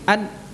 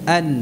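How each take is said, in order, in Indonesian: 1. Dengung sengaunya panjang dan berlebihan. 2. Dengung sengaunya pendek dan ringan. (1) "bukan an" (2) "demikian kan?"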